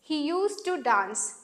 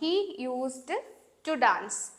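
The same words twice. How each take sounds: First: Used and to are run together as one. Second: Used and to are said as separate words. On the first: The speaker calls it right. "ഇത് ഒരുമിച്ചിട്ട് നമ്മൾ used to എന്നാണ് വായിക്കുന്നത്" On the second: The speaker calls it wrong. "എന്ന് വായിക്കരുത്"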